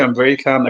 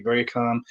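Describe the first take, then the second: First: Said in the usual way. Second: Softer, quieter calm demo. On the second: Shown as a demonstration. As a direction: show how calmly you can talk. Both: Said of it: "I can speak like you".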